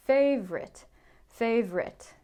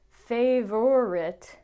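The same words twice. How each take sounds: First: Favorite said as FAVE-rit, middle vowel dropped; two-syllable favorite. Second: Favorite said very slowly as FAY-ver-it, the middle vowel kept; three-syllable favorite. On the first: Teacher demoing the common FAVE-rit. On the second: Teacher showing the form to avoid, slowly. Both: Shown as a demonstration. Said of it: "Not favorite".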